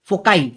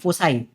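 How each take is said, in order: First: The middle consonant is a k sound. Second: The middle consonant is an s sound. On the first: "फोकाई भी बोलते हैं कुछ लोग" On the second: "इसका plural होता है फोसाई"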